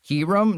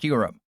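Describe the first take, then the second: First: The first syllable sounds like 'key'. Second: The first syllable sounds like 'cue'. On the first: The speaker calls it wrong. "No, that's not it" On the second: The speaker calls it right. "That is legitimately the correct pronunciation of Q-Rum"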